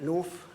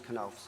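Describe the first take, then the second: First: The surname is said with an anglicized pronunciation. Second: The surname is said with a German pronunciation. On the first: This is how the family says the name. "we call it North" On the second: This is the original pronunciation of the name. "German pronunciation is Knauf"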